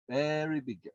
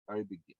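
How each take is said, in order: First: "Very" stressed and raised; emphatic. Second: Said in the usual way. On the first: Shown as a demonstration. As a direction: hit "Very" in "Very big deal" with a firmer voice. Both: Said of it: "It, it's critical for everything".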